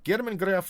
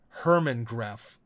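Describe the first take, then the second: First: The first name begins with a G sound. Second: The first name begins with an H sound. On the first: This is the Russian form of the name. "the way you say it in Russian" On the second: This is the English form of the name. "it'd be more like Hermann Gref"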